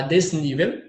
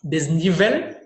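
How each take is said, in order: First: Desnível with the weight on NÍ; stressed middle syllable in desnível. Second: Desnível said Spanish-style, des-ni-VEL; last syllable stressed in Desnível. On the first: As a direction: say desnível the Portuguese way, des-NÍ-vel. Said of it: "Já em português é no ni". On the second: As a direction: push the final VEL of Desnível, clear l. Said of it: "a sílaba tônica aqui é no vel". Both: Shown as a demonstration.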